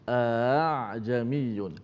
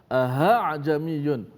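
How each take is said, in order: First: The second glottal stop is softened toward a long a. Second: The second glottal stop is replaced by an h sound. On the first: The speaker calls it right. "yang kedua itu ditashilkan. Macam mana bunyinya?" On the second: The speaker calls it wrong. "dimenukarkan hamzah kedua dengan ha ... tak boleh juga"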